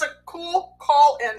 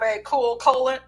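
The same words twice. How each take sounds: First: "cool call in" said slowly, as separate words; careful fix, "call in" in two clear words; corrected wording. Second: "cool colon", second word run together as KOH-lun; fumbled pun landing as "cool colon"; slip of the tongue. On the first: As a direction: open up "call" and keep "in" distinct. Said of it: "I should have said that". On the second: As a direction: say "colon" like the body part, by mistake. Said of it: "I was trying to be clever". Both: Real, not acted.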